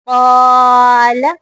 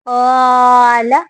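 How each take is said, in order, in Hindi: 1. यह लंबा स्वर मोटा और भारी है। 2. यह लंबा स्वर मोटा और भारी है।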